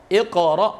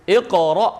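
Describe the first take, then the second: Both takes have the same delivery.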